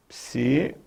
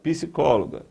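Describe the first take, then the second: First: "Psicóloga" broken up as psi, có, loga with long pauses; syllable by syllable. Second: Said in the usual way. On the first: Shown as a demonstration. Teacher counting syllables for students, "Psicóloga" split psi, có, loga. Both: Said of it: "palavra cuja sílaba mais forte".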